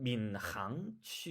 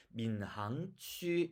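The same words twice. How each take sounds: First: 민항취 with a husky h scraped in the throat; Chinese pronunciation. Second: 민항취 with a plain, light Korean h; Korean pronunciation. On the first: Teacher contrasting Chinese with Korean speakers, Chinese pronunciation. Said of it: "중국 사람은 민항취 이렇게 말합니다". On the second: Teacher contrasting Korean with Chinese speakers, Korean pronunciation. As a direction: read 민항취 as a Korean would. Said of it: "한국 사람 민항취 이렇게 말하고요". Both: Shown as a demonstration.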